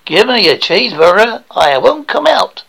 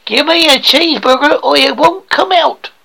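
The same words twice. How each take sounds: First: Edge closer to American, not quite there; slightly better American accent. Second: American attempt in a thick rural British voice; terrible American accent. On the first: Acted. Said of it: "starting to sound a little bit better". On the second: Pupil copies coach's example, hopelessly bad American accent. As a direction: try American and badly miss. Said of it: "that was terrible".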